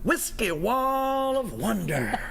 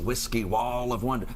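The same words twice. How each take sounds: First: The phrase is said with strong, energetic emphasis. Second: The phrase is said plainly, without extra emphasis.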